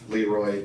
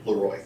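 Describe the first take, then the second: First: The name is said the folksy American way. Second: The name is said the French way, like Le Roy. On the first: It sounds rustic and homespun. The speaker calls it wrong. "makes it sound a little more ban- banjo plucky" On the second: It keeps the family's original French name. The speaker calls it right. "historically would be"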